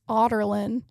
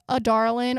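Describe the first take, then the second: First: The name sounds like 'otterlin'. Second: The name sounds like 'a darling'. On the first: This is how the audiobook says it. "it's pronounced like Otterlin" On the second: This is how book readers say it. "all of us book readers pronounce it like a darlin"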